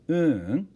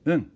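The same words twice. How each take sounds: First: The pitch rises on the second syllable. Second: The pitch stays level without a rise. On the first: It means no. "with a rising intonation on that second u syllable" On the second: It means yes. "yup rather, is pronounced un"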